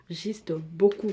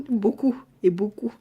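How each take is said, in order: First: Slow, drawn-out "beaucoup" with a rising end; stretched beaucoup. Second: Giggly whispered aside; laughing whisper. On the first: To viewers about her full lips, a slow rising "beaucoup". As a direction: linger on "beaucoup", letting it rise. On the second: To viewers about her big lips, whispered with a laugh. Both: Real, not acted.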